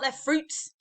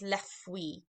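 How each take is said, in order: First: The final consonant letters are pronounced. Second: The final consonant letters are silent. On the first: The speaker calls it wrong. "So it's not les fruits" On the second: The speaker calls it right. "We don't pronounce any of those letters. So it's les fruits"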